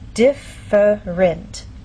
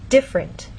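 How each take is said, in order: First: It is said slowly with three syllables. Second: It is said quickly with two syllables. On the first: "In very slow, careful speech, and especially formal speech" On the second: "often in fast speech, you lose that middle sound"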